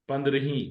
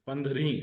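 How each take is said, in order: Both takes have the same delivery.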